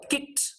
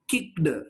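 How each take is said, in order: First: The ending is a voiceless t sound. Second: The ending is a voiced d sound. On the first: The speaker calls it right. "Make it voiceless" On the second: The speaker calls it wrong. "You should not pronounce"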